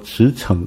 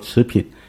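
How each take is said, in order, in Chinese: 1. 第二个音节读 chěng。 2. 第二个音节读 pìn。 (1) "应该读作驰骋" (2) "那个字不读作持品"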